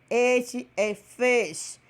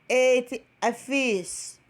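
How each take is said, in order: Both takes have the same delivery.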